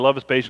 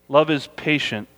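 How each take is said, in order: First: It is read quickly, running straight through. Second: It is read slowly, with a deliberate pace. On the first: The text is simply read, not meditated on. The speaker calls it wrong. "I just read right through" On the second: The text is meditated on, not just read. The speaker calls it right. "This is the pace. See how I slowed it down?"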